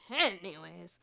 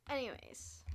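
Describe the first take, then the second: First: Sudden loud punch on the first syllable; too loud. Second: Said in the usual way. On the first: Real, not acted. Vlogger checking that viewers are listening, really loud. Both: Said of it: "I didn't mean to be that loud".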